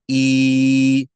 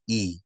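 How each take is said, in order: First: The vowel is held long. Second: The vowel is short and clipped. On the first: "This becomes E" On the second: "as opposed to just E"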